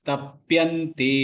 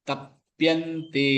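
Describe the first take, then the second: Both takes have the same delivery.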